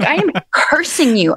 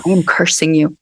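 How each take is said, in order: First: Higher, mock-dramatic curse with am stretched; hammed-up curse. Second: Solemn, low curse with weight on am; retold curse. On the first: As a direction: replay I am cursing you as a laughing mock hex. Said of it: "I was like". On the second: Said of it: "I put my finger in her face and I go".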